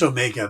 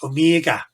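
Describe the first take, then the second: First: It is said in the speaker's ordinary accent. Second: It is said in an Australian-style accent.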